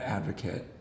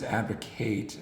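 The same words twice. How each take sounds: First: It is said with the noun pronunciation. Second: It is said with the verb pronunciation. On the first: It names a person who supports a cause. The speaker calls it wrong. "not advocate" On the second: It names the action of supporting a cause. The speaker calls it right. "it's advocate"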